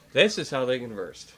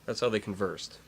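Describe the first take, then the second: First: Emphatic THIS at the start; stress on THIS. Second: Said in the usual way. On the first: Real, not acted. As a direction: lean hard on "This", then let the rest fall. Restates the corrected word emphatically.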